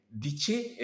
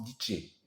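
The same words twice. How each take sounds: First: "Diché" with a ch sound, dit-che, raised; Yai diché. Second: "diché" said "dité" with a t, no ch; alternate diché. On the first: Teacher gives the first way to say diché. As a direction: say "Diché" with tch in the middle. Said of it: "c'est le mot diché". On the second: Teacher gives the other way people pronounce it. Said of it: "parfois on prononce diché". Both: Shown as a demonstration.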